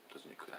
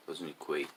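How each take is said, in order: First: Much softer, almost under the breath; quiet repeat. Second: Said in the usual way. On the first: Real, not acted. Repeating his point to the Chinese listener, quietly. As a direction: let the phrase drop away as an aside.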